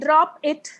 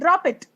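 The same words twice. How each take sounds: First: The two words are said separately. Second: The two words are linked into one. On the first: The speaker calls it wrong. "We can't say drop it" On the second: The speaker calls it right. "We will be saying drop it"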